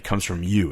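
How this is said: The pitch falls at the end. It is a confident statement. The speaker calls it right.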